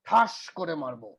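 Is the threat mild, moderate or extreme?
moderate. It sounds like a fairly serious threat.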